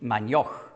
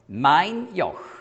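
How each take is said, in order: First: The stress falls on the word Joch. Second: The stress falls on the word mein. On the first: The speaker calls it wrong. "nicht mein Joch" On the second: The speaker calls it right. "sondern mein Joch"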